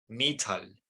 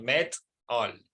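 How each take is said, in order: First: The first vowel is a long 'ee' sound. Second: The first vowel is a short 'eh' sound. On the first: The speaker calls it wrong. "van a pronunciarla mal" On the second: The speaker calls it right. "En inglés decimos met all"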